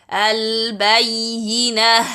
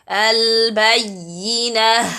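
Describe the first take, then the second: First: The final h sound is clearly audible. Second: The same.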